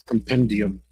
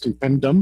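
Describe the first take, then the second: First: The ending has two syllables, '-dee-um'. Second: The ending is a single syllable, '-dum'. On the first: The speaker calls it right. "It's compendium" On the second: The speaker calls it wrong. "I thought it was compendum, which is not a word"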